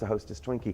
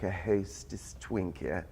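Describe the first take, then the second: First: It is said in a plain American accent. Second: It is said in an upper-class British accent. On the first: "to us today, we're like" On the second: "in a very upper class British dialect"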